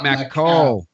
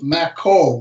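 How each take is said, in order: First: The last syllable sounds like the word cow. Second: The last syllable rhymes with the end of tobacco. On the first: The speaker calls it wrong. "not Makow ... I don't like the cow part" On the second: The speaker calls it right. "It's Mako, ... rhymes with tobacco"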